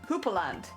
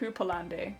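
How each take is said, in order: First: The word ends without an extra 'ee' sound. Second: The word ends with an extra 'ee' sound. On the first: The speaker calls it right. "it's just Hooperland" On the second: The speaker calls it wrong. "I have a feeling I might be pronouncing it wrong"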